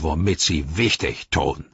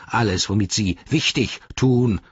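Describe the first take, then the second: First: Lightly voiced sneering orc; a touch of low orc scorn; Ugluk. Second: Slightly raised, indignant orc voice; offended orc echo; Grishnach. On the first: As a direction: belittle them offhandedly. Ugluk mocks the Nazgul. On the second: Acted. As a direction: fling the rival's words back. Grishnach quotes Ugluk back indignantly.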